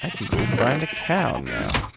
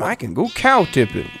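First: Said in the usual way. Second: Higher and louder, eager about the cows; excited cow tipping. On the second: Real, not acted. Gamer cheering on cow tipping, excited. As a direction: pounce on the idea, thrilled.

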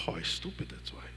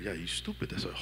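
First: Whispered, giving in to the lie; defeated whisper. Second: Soft, mocking taunt of the enemy; sly taunting voice. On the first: Pretend. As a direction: breathe it out as if beaten down. The self agreeing, unvoiced. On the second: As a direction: murmur the insult like a whispering tempter. The enemy's voice answering.

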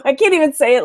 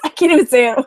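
First: Said in the usual way. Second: Laughing it out at herself. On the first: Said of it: "without laughing". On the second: Real, not acted. Admitting to viewers she can't say it, laughing. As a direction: still giggling through the words.

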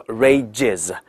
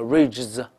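First: "rages" in two syllables, ending in a full "iz"; 正确词尾is. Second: "rages" squashed, with z straight after the j sound; 错误读法. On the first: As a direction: give "rages" a clear second syllable "jiz". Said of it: "应该叫is，is". ("rages"读成两个音节，词尾发"iz") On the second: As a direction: drop the vowel from the ending of "rages": "rayjz". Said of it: "不要读成rages". (把"rages"错读成j后直接接z，词尾没有元音) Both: Shown as a demonstration.

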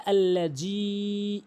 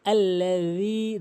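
First: আল্লাযী with a hard j, "alla-jee"; drawn-out "allajee"; common mispronunciation. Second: "alla-dheee", final vowel held; slow আল্লাযী with th-like z; correct dhal. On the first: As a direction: put a j in place of dh in আল্লাযী. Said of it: "অধিকাংশ লোক ভুল বলে". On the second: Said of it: "সঠিক উচ্চারণ হচ্ছে". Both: Shown as a demonstration.

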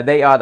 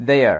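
First: "they are" as two separate words; full they are. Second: "their" blended into one drawn-out glide; contracted they're. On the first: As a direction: keep "they" and "are" apart. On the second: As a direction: glide they into are as "their". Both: Shown as a demonstration. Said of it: "they are đọc là their".

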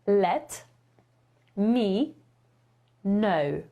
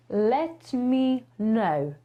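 First: 一字一顿地示范 let me know，know 读作 nie; slow model pronunciation. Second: 放慢速度示范 Let me know 的发音; slow demo. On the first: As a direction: let me know said slowly, word by word with pauses, know like nie. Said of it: "jak to wyrażenie poprawnie wymówić". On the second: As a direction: Let me know stretched very slowly, know rhymes with nie. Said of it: "Tylko że pisze się zupełnie inaczej". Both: Shown as a demonstration.

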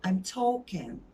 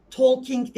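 First: "talking" as "taw-kin", no l or g; correct talking. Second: "Talking" as a loud "tol-kink"; wrong talking, as spelled. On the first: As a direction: say "talking" evenly, l silent, g dropped. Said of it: "Sondaki G de yok". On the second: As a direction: sound the l and a final k in "Talking". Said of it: "Talking değil". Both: Shown as a demonstration.

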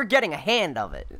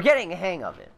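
First: "hand" said with a D ending; slip on "hang". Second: "hang" said with an NG ending; corrected "hang". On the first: Player misspeaking about getting better, "hand" ending in D. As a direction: end "hand" on a D instead of NG. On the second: Player fixing their slip, "hang" ending in NG. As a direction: end "hang" on NG, with no D. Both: Real, not acted. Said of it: "as I meant to say".

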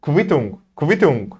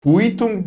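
First: "Quittung" as kvi-tung; correct German kv. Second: "Quittung" as ku-i-tung; wrong reading. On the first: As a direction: say "Quittung" with a k-v onset. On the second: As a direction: misread "Quittung" with a u glide. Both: Shown as a demonstration. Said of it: "Quittung değil de".

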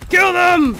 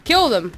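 First: High, loud attacking yell; yelled battle order. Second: Said in the usual way. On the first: Pretend. Player repeating the attack order in battle, yelled order. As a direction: scream the order at the troops.

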